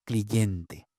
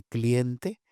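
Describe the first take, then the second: First: "cliente" said as "cliyente", falling, lower; anti-hiatus consonant. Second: Said in the usual way. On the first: Shown as a demonstration. Repeating the informant's odd form, inserted y. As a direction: put a y between i and e in "cliente". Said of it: "Presencia de una D antiyática en los grupos I E". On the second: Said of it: "en lugar de".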